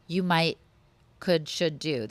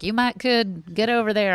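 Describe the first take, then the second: First: Said in the usual way. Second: A hint of Texan drawl on the double modal; light Texan accent. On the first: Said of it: "This is a Texas thing". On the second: Imitating how Texans talk, light Texan accent. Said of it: "I don't know why I'm talking like I'm Texan".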